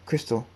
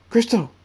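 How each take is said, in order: First: Said in the usual way. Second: High, loud shout of a name; screaming. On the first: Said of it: "runs to the next room and says". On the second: A narrator's reading. Thunderstorm searching the castle for Crystal, screaming. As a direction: cry out "Crystal" at the top of the voice. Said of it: "he screams".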